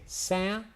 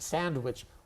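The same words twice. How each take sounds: First: The middle sounds are reduced and run together. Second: Every sound of the word is fully pronounced. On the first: "We say sandwich" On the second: "it's too much effort"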